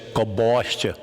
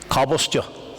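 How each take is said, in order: First: The stress is on the second-to-last syllable. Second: The stress is on the first syllable. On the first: This is the southern way of saying it. "they say gobostya; They emphasise the penultimate syllable" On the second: This is the northern (Ulster) way of saying it. "where we would say cobblestya, in Ulster Irish, we only emphasise the first syllable"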